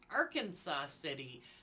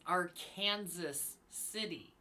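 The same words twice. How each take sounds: First: Arkansas is said in the usual outsider way. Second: Arkansas is said in the local Kansas way. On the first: This is how people from elsewhere say the name. "everyone else outside of Kansas pronounces the name Arkansas City" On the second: This is how local residents say the name. "only Kansans pronounce it as Arkansas City"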